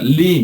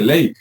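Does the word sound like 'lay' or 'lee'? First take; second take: lee; lay. First: The word is said with an 'ee' vowel. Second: The word is said with an 'ay' vowel. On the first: This is the English reading of the word. "en inglés se pronuncia Lee" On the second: This is how a Spanish speaker reads the spelling. "para nosotros dice ley"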